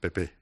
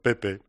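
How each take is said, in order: First: The stress is on the second syllable. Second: The stress is on the first syllable. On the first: It names the party by its initials. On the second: The party is called by a familiar first name.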